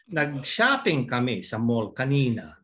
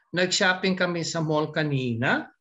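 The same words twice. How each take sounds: First: The voice falls at the end. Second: The voice rises at the end.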